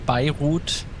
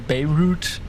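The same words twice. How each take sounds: First: It is pronounced the German way. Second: It is pronounced the American way. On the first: "In Germany, they say Beirut" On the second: "In America, they say Beirut"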